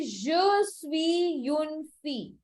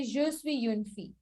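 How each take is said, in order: First: Slow French model. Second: Said in the usual way. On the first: Shown as a demonstration. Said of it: "I will say". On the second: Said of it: "to say".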